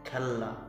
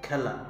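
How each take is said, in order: First: The l sound is held and doubled. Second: The l sound is short and light. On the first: The speaker calls it wrong. "খেললা নয়" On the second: The speaker calls it right. "লটা হালকা করে উচ্চারণ হয়ে আয়ে জোর পড়বে"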